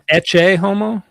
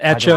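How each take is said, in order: First: The first word is said like 'etch-ay'. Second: The first word is said like 'echo'. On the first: The speaker calls it right. "Isn't it Ecce homo?" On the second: The speaker calls it wrong. "Not Echo"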